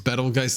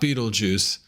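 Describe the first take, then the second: First: The name is said as Betelgeuse. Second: The name sounds like the word Beetlejuice. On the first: The speaker calls it right. "I believe that's how you pronounce it" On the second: The speaker calls it wrong. "It's not Beetlejuice"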